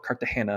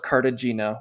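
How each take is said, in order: First: The name is pronounced the Spanish way. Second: The name is pronounced the English way.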